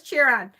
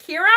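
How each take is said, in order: First: "Chiron" with a CH, like CHY-ron; mistaken pronunciation. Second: "Chiron" with a hard K, like KY-ron; "Chiron" as KY-ron, questioning; questioned pronunciation. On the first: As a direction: say "Chiron" starting as in "chair". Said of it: "is it Chiron? Really?". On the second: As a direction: say "Chiron" starting with a K sound. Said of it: "I always thought it was Chiron". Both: Shown as a demonstration.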